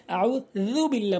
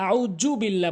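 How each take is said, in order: First: Tongue tip on teeth for the z of আউযু বিল্লাহ; correct আউযু. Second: আউযু with a hard j; mispronounced আউযু. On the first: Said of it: "বলতে হবে". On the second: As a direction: say আউযু বিল্লাহ as "auju billah". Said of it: "অনেকেই আউযু বিল্লাহ বলে". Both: Shown as a demonstration.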